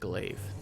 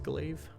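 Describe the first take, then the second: First: The vowel sounds like the vowel in clay. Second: The vowel does not sound like clay. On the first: The speaker calls it right. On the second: The speaker calls it wrong.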